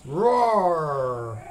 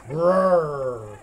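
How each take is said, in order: First: Long, open playful "roar"; tiger roar. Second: Long, rolling "grrr" growl; bear growl. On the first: Quiz on tiger sound. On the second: Quiz on bear sound. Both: Pretend.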